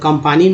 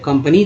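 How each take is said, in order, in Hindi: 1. 'comp' के बाद का स्वर लंबा 'aa' है। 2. 'comp' के बाद का स्वर छोटा 'a' है। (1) "आ थोड़ी बोलते. कंपानी नहीं बोलते" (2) "ए को अ बोलते हैं"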